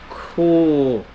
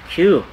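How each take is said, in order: First: The letter is said without a glide, koo. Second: The letter is said with a y glide, kyoo. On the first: This is the Norwegian letter name. "But in Norwegian, it is pronounced as ku" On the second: This is the English letter name.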